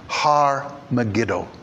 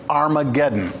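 First: It is said in the Hebrew form of the name. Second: It is said in the Greek form of the name. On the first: "the word, Hebrew word, is really Harmageddon" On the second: "This is the Greek pronunciation of it"

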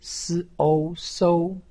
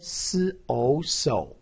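First: The pitch stays high and level. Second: The pitch dips low then rises. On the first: "一声" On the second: "三声"

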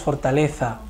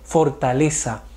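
First: The z is sounded like th. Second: The z is sounded like s. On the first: The speaker calls it wrong. "nosotros no decimos fortaleza" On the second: The speaker calls it right. "Lo correcto es decir fortaleza"

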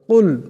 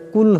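First: The first consonant is deep, from the throat. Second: The first consonant is light, made at the front. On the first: The speaker calls it right. "বড় কাফের সাথে পড়তে হবে কুল, এমন করে" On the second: The speaker calls it wrong. "ছোট কাফ দিয়া পড়লে কুল হবে"

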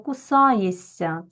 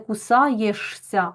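First: The consonants merge into one long soft sound. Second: The consonants are said separately, as spelled. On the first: The speaker calls it right. "ми чуємо ось це подовжене ся" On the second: The speaker calls it wrong. "ми кажемо не кусаєшся"

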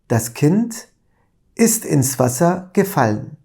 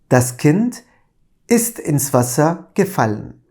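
No difference in how they are said.

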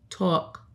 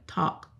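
First: It is said in a New York accent. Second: It is said in a standard American accent.

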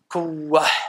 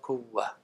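First: The final h is breathed out too strongly. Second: The final h is breathed out only lightly. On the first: The speaker calls it wrong. "Nicht zu sehr" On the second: The speaker calls it right.

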